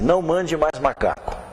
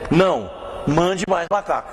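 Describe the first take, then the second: First: It is said without a pause after não. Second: There is a pause after não.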